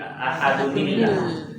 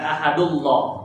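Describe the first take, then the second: First: The words join with an inserted n sound. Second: The words join without an inserted n sound. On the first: The speaker calls it right. "tapi ahadunillah" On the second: The speaker calls it wrong. "Bukan ahadullah"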